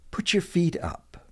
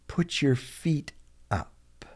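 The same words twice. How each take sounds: First: "Put your feet up" pitched high, then falling; natural-speed, higher-pitched "Put your feet up"; casual model phrase. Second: "Put your feet", a pause, then a soft "up"; slow model repeat. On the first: Teacher models phrase, then slower. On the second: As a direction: say "Put your feet up" slowly with "up" set apart. Teacher repeats phrase slowly for learners. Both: Shown as a demonstration.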